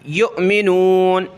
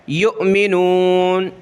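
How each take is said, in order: Both takes have the same delivery.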